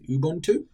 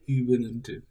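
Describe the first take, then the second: First: The word is said with three syllables. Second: The word is said with an extra syllable. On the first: The speaker calls it right. "I think the correct pronunciation pronunciation is Ubuntu" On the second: The speaker calls it wrong. "U B U N U N T U. So Ubuntu"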